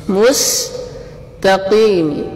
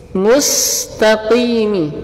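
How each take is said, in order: No difference in how they are said.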